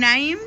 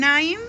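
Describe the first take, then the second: The two takes are said the same way.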